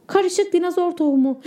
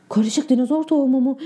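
First: Said in the usual way. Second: "Karışık dinozor tohumu mu?" asked in disbelief, stress on "tohumu"; surprised question. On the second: Acted. Boy realising he planted dinosaur seeds, stunned disbelief. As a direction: repeat it back in shock, leaning on "tohumu". Realises what the label means.

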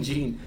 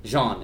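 First: Jean said like "jeans" without the s; hard j and long ee in Jean; English pronunciation of Jean. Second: Jean said the French way, like "zhahn"; French pronunciation of Jean. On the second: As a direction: say Jean as in the French man's name. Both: Shown as a demonstration. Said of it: "I keep saying Jean".

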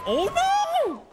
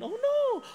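First: Sudden high, loud startled "Oh, no!"; a real gasp of alarm at the crash; genuine shocked cry. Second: A high, lighter echo of her startled "Oh, no!"; re-enacting the cry she just let out; replaying her own cry. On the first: Real, not acted. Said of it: "Ooh, that was genuine for me". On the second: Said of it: "That was a genuine".

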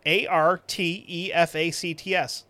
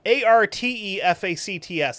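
First: A R T E F A C T S spelled slowly, stressing the A. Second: ARTEFACTS spelled A R T E F A C T S, letter by letter. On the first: Correcting his co-host, spelling it out slowly. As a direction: spell ARTEFACTS slowly, letter by letter, like a teacher. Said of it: "That's how you spell artifacts". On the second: Reading the review's spelling aloud, spelled letter by letter. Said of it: "That's not artifacts, you dink". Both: Shown as a demonstration.

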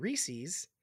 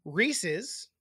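First: Reese's said REE-seez; long ee ending on Reese's, REE-seez; dum-dum pronunciation. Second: Reese's said REE-siz; short second vowel in Reese's, REE-siz; correct pronunciation. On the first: Host mocks how idiots talk, Reese's as REE-seez. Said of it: "is how dum-dums say it. idiots talk". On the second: Host shows the proper name, Reese's as REE-siz. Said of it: "is what they're called". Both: Shown as a demonstration.

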